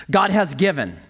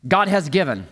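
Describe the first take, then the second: No difference in how they are said.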